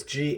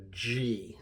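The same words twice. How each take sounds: First: "G" said as "ghee", with a hard g. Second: "G" said as "jee", with a j sound; soft G. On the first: Teacher explains the G H spelling, hard "ghee" sound. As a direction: make "G" a hard-g syllable, like "geese". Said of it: "make sure that you understand this is a G". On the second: Teacher shows the sound to avoid, soft "jee". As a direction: make "G" soft, like the letter's name. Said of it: "not a G". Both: Shown as a demonstration.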